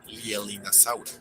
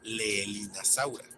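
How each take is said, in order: First: The opening vowels are read the English way. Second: The opening vowels are read the Latin way. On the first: The speaker calls it right. "deriva del nombre propio que se pronuncia Lielin" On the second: The speaker calls it wrong. "podríamos pensar que se pronuncia Leelinasaura, pero no es el caso"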